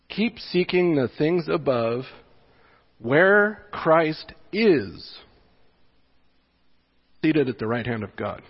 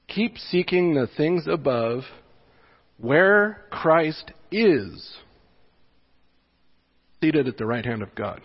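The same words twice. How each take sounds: First: It is read with a marked pause after above. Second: It is read with a marked pause after above.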